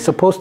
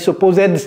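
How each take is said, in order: First: The final D sound is dropped. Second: The final D sound is clearly pronounced. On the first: "j'ai pas prononcé le D à la fin de suppose" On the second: "J'ai pas dit supposed"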